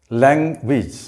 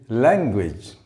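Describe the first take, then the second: No difference in how they are said.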